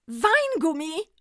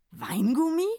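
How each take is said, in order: First: High, loud, slow exclamation; rejoicing Santa cry; jubilant. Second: Puzzled rising question; the druggist is baffled; confused. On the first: Santa to the druggist, high jubilant cry. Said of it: "frohlockte der Weihnachtsmann". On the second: Druggist asking Santa, puzzled question. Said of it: "fragte verwirrt". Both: A narrator's reading.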